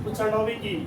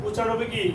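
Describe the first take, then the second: No difference in how they are said.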